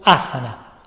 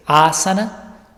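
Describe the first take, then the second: First: Asana with a short, stressed opening A; accent on first A. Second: Asana with the first A stretched out; "asana" with a double-length first A; preferred long-A pronunciation. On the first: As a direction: punch the first A of asana without stretching it. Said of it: "como si tuviera un tilde o un acento en la primer A". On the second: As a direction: linger on the opening A of asana. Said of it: "las formas que me parecen más correctas de pronunciarlo es". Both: Shown as a demonstration.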